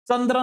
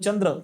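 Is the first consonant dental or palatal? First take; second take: dental; palatal. First: The first consonant is a plain dental ts sound. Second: The first consonant is palatal, with a y-like glide. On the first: The speaker calls it wrong. "चंद्र नाही म्हणत" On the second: The speaker calls it right. "हे संपूर्ण जे काही शब्द आहेत तर ते तालव्य आहे"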